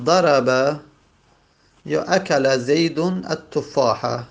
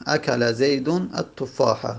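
First: Slow careful reading. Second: Said in the usual way. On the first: Shown as a demonstration. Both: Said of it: "مانند مثلاً".

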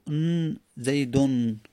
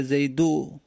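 First: "زیدون" slowly, ending in a held n; tanwin n. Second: "زیدو" ending in an open u, no n; without tanwin. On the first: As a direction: isolate the "ن", then say "زیدون" with -un. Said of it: "دومی تنوینه". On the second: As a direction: say "زیدو" with a drawn-out final u and no nun. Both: Shown as a demonstration.

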